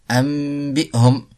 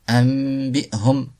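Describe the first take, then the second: No difference in how they are said.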